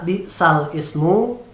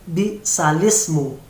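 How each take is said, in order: First: The hamzah sound is pronounced between the words. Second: The hamzah sound is dropped, words run together. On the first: "yang semula harus dibaca" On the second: "Jadi bunyi huruf hamzah dihilangkan"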